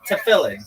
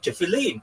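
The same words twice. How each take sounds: First: It is pronounced the way it is said elsewhere. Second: It is pronounced the way Israelis say it. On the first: "Everywhere else they say tefillin" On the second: "in Israel we say tefillin"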